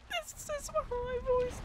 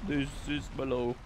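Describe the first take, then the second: First: Very high, slow falsetto. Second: Low voice. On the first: Streamer showing off his range after the teapot song, high voice. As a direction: pitch it absurdly high and draw it out. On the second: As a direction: drop out of falsetto into chest voice. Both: Shown as a demonstration.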